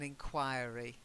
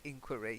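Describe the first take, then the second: First: It is said with the British pronunciation. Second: It is said with the American pronunciation. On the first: "In in the U K, we tend to say" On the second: "in America, I have heard people say inquiry"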